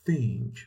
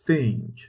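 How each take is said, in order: First: The word begins with a th sound. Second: The word begins with a th sound.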